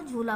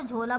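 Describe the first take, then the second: First: झूला with a long 'oo' after jh; vowel of 'food' in झूला; ऊ reading. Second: झोला with a long 'oh' after jh; vowel of 'go' in झोला; ओ reading. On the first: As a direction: say 'jhoo-laa' for झूला. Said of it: "तो झूला पढ़ेंगे". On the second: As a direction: say 'jhoh-laa' for झोला. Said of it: "तो झोला पढ़ेंगे". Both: Shown as a demonstration.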